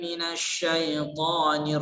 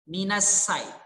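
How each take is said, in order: First: The consonant is an sh sound. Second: The consonant is a plain s sound. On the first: The speaker calls it right. "sepatutnya dibaca dengan shim" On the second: The speaker calls it wrong. "dengan sin"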